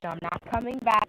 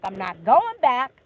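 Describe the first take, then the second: First: Said in the usual way. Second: Louder and slower, each word weighted; firm, final repeat. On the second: Real, not acted. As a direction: slam the door on it, slow and heavy.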